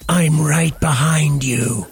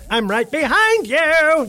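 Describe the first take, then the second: First: It is said in a creepy, menacing way. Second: It is said in a light, cheerful way. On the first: It is a threat. "See, that's scary" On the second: It is harmless. "Then it's suddenly not scary"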